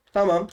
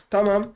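The two takes are said the same way.

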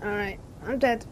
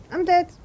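First: Said in the usual way. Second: High, loud dismayed cry. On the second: Real, not acted. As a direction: wail it out in dismay.

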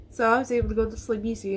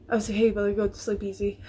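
First: Said in the usual way. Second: Said through a laugh. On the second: Real, not acted. Vlogger repeats herself to viewers, laughing at it. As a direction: let a laugh break in.

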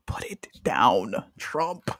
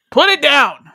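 First: Whispered plea. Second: Higher, louder order; loud command. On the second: Host loudly ordering Trump to drop the phone. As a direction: bark it like scolding a kid. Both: Pretend.

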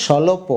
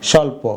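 First: "স্বল্প" as sholopo, three syllables; wrong extra vowel. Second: "স্বল্প" as sholpo, two syllables; joined consonants. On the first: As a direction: put an o between l and p in "স্বল্প". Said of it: "উচ্চারণটা হয়েছে". (হসন্ত ছাড়া "স্বল্প") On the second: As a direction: join l and p directly in "স্বল্প". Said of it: "হসন্ত দিলে উচ্চারণ হবে". (হসন্ত দিয়ে "স্বল্প") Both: Shown as a demonstration.

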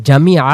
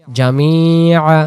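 First: জামিআ said short, the ই not stretched, so the ইয়া drops out; the quick mistaken জামিআ; clipped wrong version. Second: জামিআ with a long, slow ই so the ইয়া is heard; stretched correct version. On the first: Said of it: "আর যদি আমি বলি". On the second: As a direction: draw out the ই in জামিআ. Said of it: "এজন্য তখন আদায় হয় জামিআ". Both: Shown as a demonstration.

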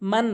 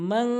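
First: মান said short with a plain n; common mispronunciation. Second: মান with the n hummed through the nose; ghunnah. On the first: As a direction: say মান with no nasal hold. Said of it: "মান বলে". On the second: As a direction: hold the nasal ending of মান. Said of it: "গুণনা করতে হবে". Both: Shown as a demonstration.

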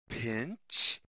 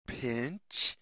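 The two takes are said the same way.

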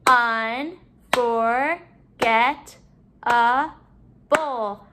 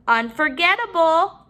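First: "Unforgettable" very slowly, in five beats; syllable by syllable. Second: Said in the usual way. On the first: Shown as a demonstration. Teacher counting syllables in the word, broken up. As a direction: separate each syllable of "Unforgettable" with pauses. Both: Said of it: "break up our syllables".

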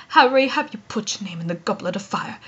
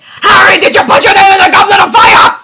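First: Soft, low, understated question; gentle, hushed, composed delivery; calm. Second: Loud, high, fast yelled question; high-pitched urgent bellow; frantic shout. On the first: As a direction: ask it quietly and evenly, very low. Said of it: "calmly like Dumbledore". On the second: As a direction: yell it frantically in a rush. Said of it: "He would say". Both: Shown as a demonstration.

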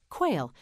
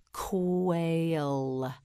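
First: Said in the usual way. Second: "Quail" drawn out long and level; stretched model word. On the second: Shown as a demonstration. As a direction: stretch "Quail" slowly through every sound. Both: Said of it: "You say it, say quail".

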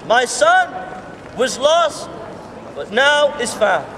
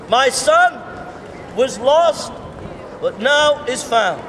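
No difference in how they are said.

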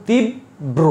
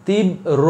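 First: তীব্র split as tib... bro, the b sounded in both halves; correct pronunciation. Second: তীব্র slowly split as tib... ro, single b; wrong pronunciation. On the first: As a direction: hold tib, then land on a full bro in তীব্র. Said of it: "উচ্চারণ হবে তীব্র". (তীব্র: তিব... ব্রো, ব দুইবার উচ্চারণ) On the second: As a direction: pause after tib, then only ro for the end of তীব্র. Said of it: "এটা ভুল". (তীব্র: তিব... রো, ব দ্বিত্ব না করে ভুল উচ্চারণ) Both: Shown as a demonstration.

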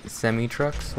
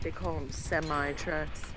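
First: Semi said SEH-mee. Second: Semi said SEM-eye. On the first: Shown as a demonstration. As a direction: Semi trucks? ending in ee. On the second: Retold or imitated. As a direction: semi trucks, last syllable like eye. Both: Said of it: "They call 'em semi trucks".

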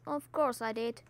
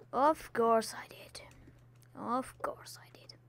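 First: Said in the usual way. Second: Soft self-mocking whisper; a hushed, rueful aside. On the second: Real, not acted. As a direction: whisper it to yourself.

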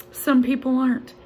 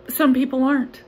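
The two takes are said the same way.

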